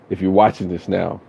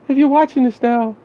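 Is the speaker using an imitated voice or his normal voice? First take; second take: normal; imitated. First: It is said in his own normal voice. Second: It is said in a put-on imitated voice.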